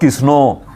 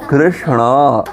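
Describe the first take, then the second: First: The word drops the R and simplifies SH. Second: The word keeps its full R and SH sounds. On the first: The speaker calls it wrong. "Not Kisno. Certainly not" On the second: The speaker calls it right. "That's the perfect pronunciation"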